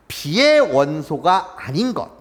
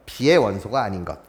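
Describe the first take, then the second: First: B의 drawn out long and falling; slow read with B의 stretched. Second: Said in the usual way. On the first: Shown as a demonstration. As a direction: lean on B의 and hold it. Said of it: "집합 B의 차집합이라고 읽어요". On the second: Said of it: "A의 원소이고".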